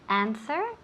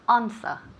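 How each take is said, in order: First: It is said in an American accent. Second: It is said in a British accent. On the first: "Americans, we say answer" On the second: "if you have a British uh, accent, ... you say ans- answer"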